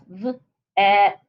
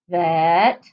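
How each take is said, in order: First: The word is said slowly, sounds pulled apart. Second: The word is said quickly as one unit. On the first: "Say it slow" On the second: "then say it fast"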